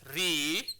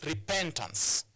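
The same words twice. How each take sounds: First: "repentance" broken into RE, PEN, TANCE with long pauses; syllable by syllable. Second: "repentance" as one slow word, stressed on PEN; stress on second syllable. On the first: Teacher counting out a three-syllabic word, "repentance" split into separate syllables. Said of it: "is a three-syllabic word". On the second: Teacher giving the whole word, "repentance" with second-syllable stress on PEN. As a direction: lean on PEN in "repentance", then fall away. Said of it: "on the second syllable". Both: Shown as a demonstration.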